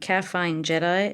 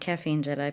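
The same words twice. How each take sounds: First: The first word sounds like calf plus fine. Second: The first word sounds like the drink caffeine. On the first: The speaker calls it right. "as in calf and fine" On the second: The speaker calls it wrong. "People always get that wrong"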